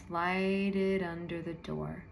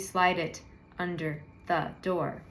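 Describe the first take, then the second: First: The words flow together in one smooth stream. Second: Each word is said separately with small breaks. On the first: The speaker calls it right. "I just pull the tone all the way through the whole thing" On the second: The speaker calls it wrong. "It wouldn't be slide it under the door, right?"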